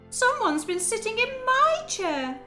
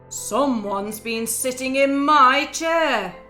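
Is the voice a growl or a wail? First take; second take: wail; growl. First: It is wailed in Baby Bear's voice. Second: It is growled in Daddy Bear's voice.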